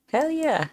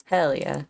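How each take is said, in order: First: Much higher, eager hell yeah; excited. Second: Said in the usual way. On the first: Real, not acted. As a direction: repeat it pumped up and higher. Repeats it more eagerly.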